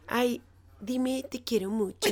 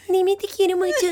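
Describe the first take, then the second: First: It is said in her normal voice. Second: It is said in a little girl's voice.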